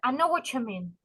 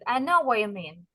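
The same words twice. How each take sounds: First: The T merges with 'you' into a ch sound. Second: The T sound in 'what' is dropped entirely. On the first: "делают Т с U, и вот эта вот ассимиляция" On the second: "некоторые вот так Т проглатывают"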